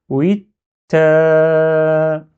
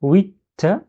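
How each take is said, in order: First: "oui" blocked on t, then a very long "ta"; stop, then sustain a loud "taaaa"; "oui, ta" as "wit...taaaa", vowel held level; shadda with prolongation. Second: "Oui" stopped on t, gap, then "ta"; firmly block the t before a short "ta"; higher "Oui, ta" as "wit...ta"; shadda. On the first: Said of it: "je fais le prolongement". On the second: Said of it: "il faut bien faire shadda". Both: Shown as a demonstration.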